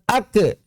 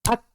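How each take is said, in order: First: The final k is followed by a vowel. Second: The final k is released with only breath. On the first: The speaker calls it wrong. "sehingga tidak diucapkan ake" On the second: The speaker calls it right. "maka tidak menghasilkan suara... Sekadar menghasilkan embusan napas saja"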